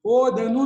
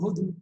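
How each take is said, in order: First: Every syllable is fully pronounced, vowel kept. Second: The middle vowel is dropped, shortening the word. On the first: The speaker calls it wrong. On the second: The speaker calls it right.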